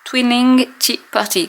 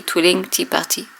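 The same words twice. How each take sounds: First: "Twilling Tea Party" read slowly off the label, pitched up; careful English name. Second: Said in the usual way. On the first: Shown as a demonstration. Vlogger reading the ink's name off the label to viewers, slow and careful. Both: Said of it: "le nom que j'ai oublié".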